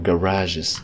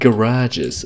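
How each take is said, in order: First: The word has a French-like pronunciation. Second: The word has an anglicized pronunciation.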